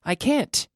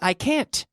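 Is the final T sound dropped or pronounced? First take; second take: pronounced; pronounced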